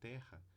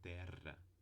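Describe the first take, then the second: First: The r is said without a tongue trill. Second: The r is a trill with vibrating tongue. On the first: "para falar terra" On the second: "é uma vibração múltipla da língua nos dentes"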